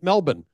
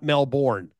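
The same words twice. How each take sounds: First: It is said the local Australian way. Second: It is said the American way. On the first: The speaker calls it right. "learned how to pronounce it" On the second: The speaker calls it wrong. "not Melbourne, as we would say in America"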